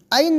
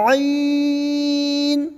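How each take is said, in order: First: عین as a plain falling ain; quick, unstretched عین; wrong short reading. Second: عین from the throat, ee held very long; long chanted throaty عین; drawn out. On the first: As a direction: say عین short, with no throat squeeze. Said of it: "نہیں". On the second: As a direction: stretch عین on one higher even note. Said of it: "اس طرح سے کھینچ کے". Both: Shown as a demonstration.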